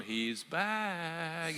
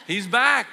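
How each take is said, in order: First: Said in the usual way. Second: Loud, high burst of resentment; indignant older brother. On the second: Acted. Jealous older brother hears the prodigal returned, loud indignation. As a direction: spit out the news like a jealous sibling. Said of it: "The older brother was angry".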